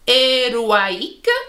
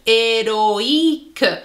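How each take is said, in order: First: The O and I merge into a wa sound. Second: The O and I are pronounced as separate vowels. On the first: The speaker calls it wrong. "normalement, ce son, il fait le son wa, et à la place de dire héroïque" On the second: The speaker calls it right. "on doit dire héroïque"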